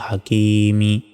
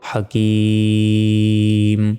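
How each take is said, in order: First: The word ends with a short vowel. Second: The word ends on a stopped consonant. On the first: The recitation continues without stopping. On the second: The reciter stops at this word.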